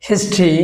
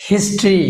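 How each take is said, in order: No difference in how they are said.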